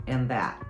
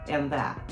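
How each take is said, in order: No difference in how they are said.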